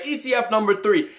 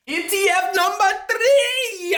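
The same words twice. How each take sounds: First: Said in the usual way. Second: Real excited screaming. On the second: Real, not acted. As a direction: announce it like a game show host. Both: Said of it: "don't know why I'm screaming".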